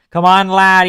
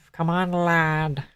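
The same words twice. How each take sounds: First: Higher, louder British lad voice; playful British accent, raised pitch; mock British accent. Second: Softer, slow British lad voice; drawn-out British lad, said quietly; hushed, slow British accent; mock British accent. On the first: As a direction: call out like a cheeky British lad.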